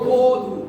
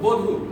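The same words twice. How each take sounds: First: The first vowel is said with rounded lips. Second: The first vowel is open, lips not rounded. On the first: This is how it should really be said. The speaker calls it right. "মানে মুখটা গোল হবে" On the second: This is how most people say it. The speaker calls it wrong. "যেমন আমরা প্রায় সবাই বলি বধূ"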